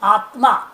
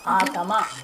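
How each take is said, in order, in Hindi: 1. "t" और "m" एक संयुक्त वर्ण के रूप में जुड़े हैं। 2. "t" और "m" के बीच एक स्वर डाला जाता है। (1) "आत्मा नहीं बोले" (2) "संयुक्त वर्ण नहीं बोल पाते"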